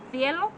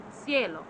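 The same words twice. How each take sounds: First: Cielo with a th at the start, lifted in a rise; higher cielo, lisped th as in Spain; Spanish accent from Spain. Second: Cielo with a plain s at the start, falling; Mexican Spanish pronunciation. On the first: Teacher contrasting accents, cielo the Spain way with th. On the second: Teacher contrasting accents, cielo the Mexican way with s. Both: Shown as a demonstration. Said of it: "Sounds different".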